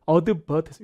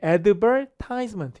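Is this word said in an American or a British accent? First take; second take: British; American. First: It is said with a British accent. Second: It is said with an American accent. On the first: "영국식으로 하니까 ... 여기 강조했어요" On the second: "미국식으로는 이게"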